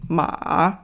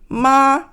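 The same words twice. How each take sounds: First: The pitch stays low without rising. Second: The pitch stays high and flat. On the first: "low, and then, but it doesn't go up" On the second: "flat, high"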